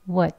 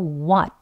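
First: The vowel is short and reduced to schwa. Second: The vowel is full, with mouth open wide. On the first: "약형입니다... 짧게 어라고 소리를 내면" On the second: "입을 크게 위아래로 벌려서 어 하는 발음이에요"

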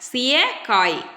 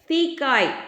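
First: The word is said with three syllables. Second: The word is said with two syllables. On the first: This is the standard written form. The speaker calls it right. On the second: This is the colloquial spoken form. The speaker calls it wrong.

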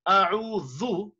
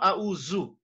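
First: The middle consonant is a soft 'th' sound. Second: The middle consonant is a buzzing 'z' sound. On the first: The speaker calls it right. "you have a'udhu" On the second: The speaker calls it wrong. "It's not a'uzu"

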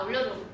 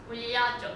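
First: It is said in a blunt, casual, offhand way. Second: It is said in a shy, cute, coy way. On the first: The speaker is relaxed and comfortable. "그냥 야 올려줘 이렇게 하던 거를" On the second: The speaker feels embarrassed and self-conscious. "올려줘 이렇게 되는 거야"

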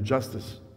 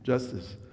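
First: The two words run together quickly into one. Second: The same.

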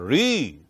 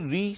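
First: The vowel sound is long. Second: The vowel sound is short.

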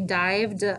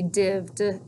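First: The vowel is said as a long sound. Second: The vowel is said as a short sound. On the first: The speaker calls it wrong. "So not say dived" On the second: The speaker calls it right. "it should be divd"

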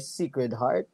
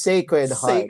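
First: It is said with a standard accent. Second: It is said with a Bisaya accent. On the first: "It's not anymore Sacred Heart" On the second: "It's Sacred Heart"

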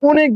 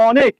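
First: The first vowel is a closed o sound. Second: The first vowel is an open aw sound. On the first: The speaker calls it wrong. "আপনি অনেক বলেন না" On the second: The speaker calls it right. "অ অই উচ্চারণ করছেন"

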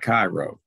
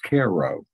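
First: The first syllable sounds like 'kye'. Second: The first syllable sounds like 'care'. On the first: This marks the speaker as an outsider. The speaker calls it wrong. "not Cairo" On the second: This is how locals say it. The speaker calls it right. "it's Cairo, ... they pronounce it Care. It's a K-E-H sound"

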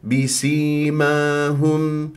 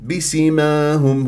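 First: The vowel after the s is held two counts. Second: The vowel after the s is cut short. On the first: The speaker calls it right. "إذا بسيماهم هكذا" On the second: The speaker calls it wrong. "البعض يقول بسيماهم بسيماهم، وهذا خطأ"

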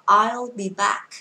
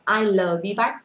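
First: I'll ends with a neutral 'uh' vowel. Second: I'll ends with a rounded 'oh' vowel. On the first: The speaker calls it right. "đọc là I'll be back" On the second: The speaker calls it wrong. "Không đọc là I'll be back"

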